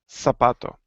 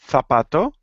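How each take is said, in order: First: The z is said like English s. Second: The z is said like English th. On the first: This is how it is said in Latin America. "In Latin America, zapato" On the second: This is how it is said in Spain. "people from Spain or most people from Spain ... will sound zapato"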